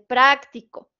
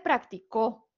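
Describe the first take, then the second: First: The stress is on the first syllable. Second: The stress is on the third syllable. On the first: "tiene la sílaba tónica en pra" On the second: "el acento prosódico en la O"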